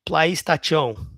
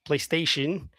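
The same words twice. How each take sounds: First: PlayStation mangled as "ply-sta-CHO"; wrong pronunciation. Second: Said in the usual way. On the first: Shown as a demonstration. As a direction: mispronounce PlayStation with "tachon" for "tation". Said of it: "it's a pronunciation problem". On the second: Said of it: "PlayStation has different accents".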